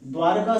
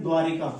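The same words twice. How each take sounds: First: The teacher carefully models the right form द्वारका; correct pronunciation. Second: द्वारिका said as dvaa-ri-ka, with an extra i after r; the teacher mimics the everyday mistake द्वारिका; common wrong pronunciation. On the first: Teacher showing students the correct form, a careful द्वारका. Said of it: "ये द्वारका सही लिखा गया". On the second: Teacher showing students the common error, द्वारिका with an added i. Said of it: "जो कि गलत है". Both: Shown as a demonstration.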